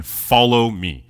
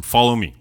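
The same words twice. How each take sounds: First: Slow solemn call. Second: Said in the usual way. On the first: Acted. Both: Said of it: "He tells him".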